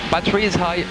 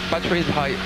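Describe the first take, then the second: No difference in how they are said.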